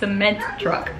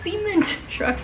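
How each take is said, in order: First: The first word is said as normal 'cement'. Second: The first word sounds like 'semen'. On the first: The speaker calls it right. "It's cement truck" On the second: The speaker calls it wrong. "That sounds like a, another word without the C at the end. Like, that's not how you say it"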